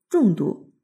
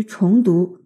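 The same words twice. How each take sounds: First: 重读 with 重 as falling zhòng; 重读 read as zhòngdú. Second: 重读 with 重 as rising chóng; 重读 read as chóngdú. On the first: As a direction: say 重读 as zhòng dú, meaning read heavily. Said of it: "重读就是读得重一点". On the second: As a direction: say 重读 as chóng dú, meaning read over. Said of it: "重读就是回头再读". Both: Shown as a demonstration.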